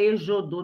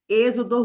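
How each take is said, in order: First: The x is not pronounced as a z. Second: The x is pronounced as a z. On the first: The speaker calls it wrong. "não é êxodo, não, por favor" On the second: The speaker calls it right. "aí o X tem som de Z"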